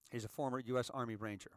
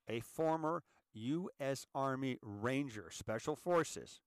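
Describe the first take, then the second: First: Said in the usual way. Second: Measured, drawn-out delivery, each part set apart; slow and deliberate. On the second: Shown as a demonstration. Host repeats the senator's military background so it sinks in, slowly. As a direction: say it slowly for emphasis. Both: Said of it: "Let's say that slowly again".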